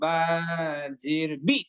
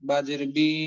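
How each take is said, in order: First: The final vowel is cut off abruptly. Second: The final vowel is drawn out long. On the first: "সবার শেষে যাতে হামজা যুক্ত হয়ে যায়" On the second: "উচ্চারণ যাতে এমন না হয় যে"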